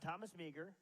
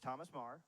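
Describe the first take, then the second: First: The surname has the outsider's pronunciation. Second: The surname has the local Montana pronunciation. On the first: The speaker is not from Montana. The speaker calls it wrong. "It's not Thomas Meagher" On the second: The speaker is from Montana. The speaker calls it right. "it's Thomas Marr"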